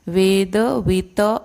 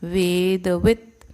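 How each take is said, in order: First: The final t is followed by a full vowel. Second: The word ends on a bare t sound. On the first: The speaker calls it wrong. "नहीं" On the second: The speaker calls it right. "त के नीचे डॉ ये है line है, तो उसको हम पूरा नहीं पढ़ेंगे"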